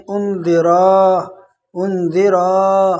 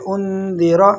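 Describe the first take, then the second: First: انذرا with a long alif after ra; long ra mistake. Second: انذرا with a short, quick ra. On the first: Teacher imitates the common error. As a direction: stretch انذرا into undaraa. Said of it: "لوگ کیسے پڑھتے ہیں". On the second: Teacher shows the correct quick reading. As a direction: clip the ra in انذرا. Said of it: "اس کو جلدی سے پڑھیں گے". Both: Shown as a demonstration.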